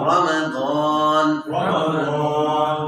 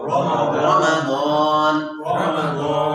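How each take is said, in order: Both takes have the same delivery.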